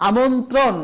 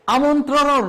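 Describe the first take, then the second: First: আমন্ত্রণ said amontro, single r-phala; correct single demo. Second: আমন্ত্রণ said as amontroro, r-phala doubled, higher and louder; wrong doubled r demo. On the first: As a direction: clean আমন্ত্রণ with no doubling. (সঠিক উচ্চারণ আমন্ত্রণ) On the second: (ভুল দ্বিত্ব র ফলা আমন্ত্রণ) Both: Shown as a demonstration. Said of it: "এইরকম double র ফলা উচ্চারণ করা যাবে না".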